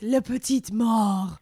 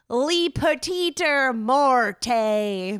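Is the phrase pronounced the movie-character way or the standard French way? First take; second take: standard French; movie-character. First: Pronounced the standard French way. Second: Pronounced the way a movie character said it. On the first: It is the proper French phrase. The speaker calls it right. "It's La Petite Mort" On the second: It copies how someone said it in a film. The speaker calls it wrong. "because that's how the guy said it in the movie"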